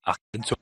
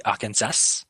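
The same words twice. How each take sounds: First: "Arkansas" the French way, ending open without S; French pronunciation. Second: "Arkansas" with the final S clearly sounded; pronunciation with S. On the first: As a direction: say "Arkansas" as a French word, silent last S. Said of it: "In France, we say". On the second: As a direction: end "Arkansas" on a hissed "-sas". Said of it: "we say Arkansas". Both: Shown as a demonstration.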